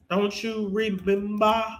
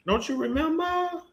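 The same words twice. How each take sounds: First: Said in the usual way. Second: High, teasing sing-song; mock her with a high taunt; high sing-song jeer at Malika. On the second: Taunting Malika, repeated question.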